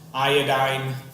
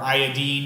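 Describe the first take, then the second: First: The ending differs from the other halogen names. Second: The ending matches the other halogen names.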